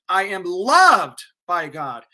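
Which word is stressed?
loved. The stress is on the word loved.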